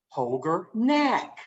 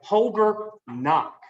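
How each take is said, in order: First: The surname has the vowel of knack. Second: The surname has the vowel of knock. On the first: The speaker calls it wrong. "I was pronouncing it Holger Knack" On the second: The speaker calls it right. "That's how you pronounce his name"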